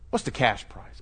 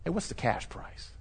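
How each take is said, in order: First: Said in the usual way. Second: Secretive whisper; hushed under-the-table ask; whispered aside. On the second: Retold or imitated. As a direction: whisper it like a shady offer. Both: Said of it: "they'll say".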